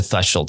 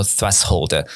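First: Put-on "threshold" as "THRESH-old"; correct pronunciation. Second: "threshold" as "fres-hold"; demonstrated local "thres-hold"; office mispronunciation. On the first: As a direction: say "threshold" with TH and a SH in the middle. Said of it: "真的正确念法应该是". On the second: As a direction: split "threshold" into S plus H, no SH. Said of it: "只能跟着说". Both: Shown as a demonstration.

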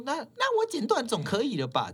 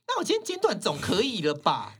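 First: Mock fierce customer, much higher; fierce snap again. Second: Imitating a fierce customer, higher and louder; fierce snap. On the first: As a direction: retell the rude comeback, higher. (模仿凶客人，音调拉高) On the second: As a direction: throw the line back at her, fiercely. (凶巴巴地顶回去) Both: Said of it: "就这么凶欸".

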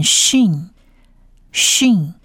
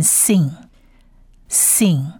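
First: 训 said "sheen" with a hushing sh; letter name shin. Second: 信 said "seen" with a plain s; letter name sin. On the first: Teacher tells two look-alike letters apart, 训 with sh. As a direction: say 训 with sh, not plain s. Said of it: "我们把这个字念训". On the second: Teacher tells two look-alike letters apart, 信 with plain s. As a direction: say 信 with a hissed s, no sh. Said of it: "这个字念信". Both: Shown as a demonstration.

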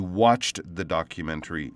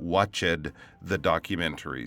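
First: "watched" as one syllable, WATCHT; correct ED ending. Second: "watched" as two syllables, WATCH-id; wrong ED ending. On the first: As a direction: end "watched" on a quick T sound. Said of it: "the correct way to say". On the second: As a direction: sound the ED of "watched" separately. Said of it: "You did not". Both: Shown as a demonstration.

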